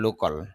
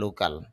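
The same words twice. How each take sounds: First: The second vowel is reduced and weak. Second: The second vowel is a full open 'a'. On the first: This is the standard pronunciation. The speaker calls it right. "শুদ্ধ উচ্চারণ হবে" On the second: This is how it is commonly said locally. The speaker calls it wrong. "আমাদের দেশে এটা প্রচলিত উচ্চারণ হলো"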